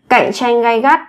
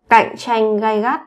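The two takes are said the same way.

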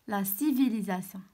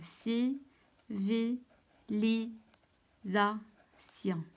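First: Said in the usual way. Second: "سيفيليزاسيون" very slowly, a pause after every syllable. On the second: Shown as a demonstration. Teacher writing the word in the table, "سيفيليزاسيون" in separate syllables. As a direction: spell out "سيفيليزاسيون" as si, vi, li, za, sion. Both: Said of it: "دونك شنو كنطق؟".

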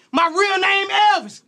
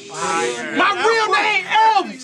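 First: Said in the usual way. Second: My real name Elvis, each word dragged out; slowed-down punchline repeat; very slow emphatic repeat. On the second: Acted. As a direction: stretch the line out for the crowd to catch it. Rap line repeated for emphasis.

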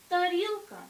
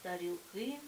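First: Тарілка with loud, high stress on РІЛ; stem stress. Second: Тарілки with stress moved to final КИ; stress on ending. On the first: Teacher showing the singular, тарілка stressed loudly on РІЛ. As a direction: punch the middle syllable of тарілка. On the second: Teacher showing the plural, тарілки stressed on final КИ. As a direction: land on the last syllable of тарілки, lower-pitched. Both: Shown as a demonstration. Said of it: "наголос переходить у закінчення".

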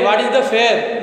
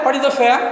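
First: "fair" with a long e and sounded r; wrong pronunciation demo. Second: "fair" as feh-uh, with no r; correct diphthong. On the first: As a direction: end "fair" on a clear r, no schwa glide. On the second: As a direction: glide "fair" from e into a schwa, r dropped. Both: Shown as a demonstration. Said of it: "Not fair".

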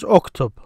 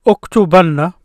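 First: "uktub" with no vowel after the final b; silent ending. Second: "Uktubanna" with an "a" before a doubled nn; with emphatic ending. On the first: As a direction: end "uktub" on a bare silent b. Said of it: "Notice this silent movement or no movement". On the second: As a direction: stretch the nn in "Uktubanna". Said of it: "Now the emphasis "an" is added". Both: Shown as a demonstration.

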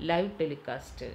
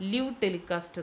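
First: ലൈവ് with an "eye" glide, as in "five"; long-i ലൈവ്, rhyming with "five"; correct pronunciation. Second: ലിവ് with a short i, as in "give"; short-vowel ലിവ്, rhyming with "give"; mistaken pronunciation. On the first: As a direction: say ലൈവ് as "lyve" before telecast. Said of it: "പക്ഷെ pronounce ചെയ്യുന്നത്". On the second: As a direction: say ലിവ് as "liv" before telecast. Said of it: "ലിവ് telecast എന്നല്ല പറയുക". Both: Shown as a demonstration.

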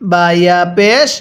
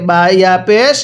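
No difference in how they are said.

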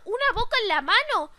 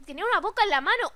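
First: "Una boca en la mano" pitched up, emphatic; incredulous repeat. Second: Said in the usual way. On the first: Real, not acted. Gamer marvelling at the monster's hand, incredulous emphasis. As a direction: exclaim UNA BOCA in disbelief.

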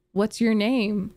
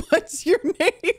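First: Said in the usual way. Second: Laughing. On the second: Real, not acted. Reading text, breaking into laughter.

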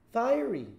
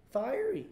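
First: Said in the usual way. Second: Fiery jumps much higher and rises at the end; leaping emphasis. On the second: Acted. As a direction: toss Fiery up high like a question. Word repeated for emphasis.

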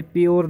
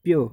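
First: "प्योर" closing on an audible R; sounded final R. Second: "प्योर" said "pyo", ending on the vowel; silent final R. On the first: Teacher shows students what not to say, sounded R. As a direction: pronounce the R ending "प्योर". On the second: Teacher models the word for students, silent R. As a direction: drop the R from "प्योर". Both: Shown as a demonstration. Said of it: "प्योर नहीं बोलते".

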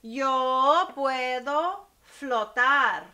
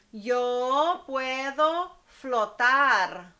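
First: Slow, with the weight on yo; stress on yo. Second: Slow, with the weight on flotar; stress on flotar. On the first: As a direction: say it again, now hitting yo. (énfasis lento en yo) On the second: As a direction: act out the verb, leaning on flotar. (énfasis lento en flotar) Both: Shown as a demonstration. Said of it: "Otra vez".

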